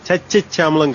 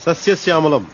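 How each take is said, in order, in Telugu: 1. ఈ పదం 'ch' శబ్దంతో మొదలవుతుంది. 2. ఈ పదం 's' శబ్దంతో మొదలవుతుంది.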